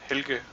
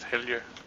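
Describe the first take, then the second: First: The middle consonant is a hard G sound. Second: The middle consonant is a soft J sound. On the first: Someone deliberately says the name the way a relative's name was said. The speaker calls it wrong. "she pronounces the G instead of a J" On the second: The name is said the way the parents intended. The speaker calls it right. "the way my parents expected it to be pronounced"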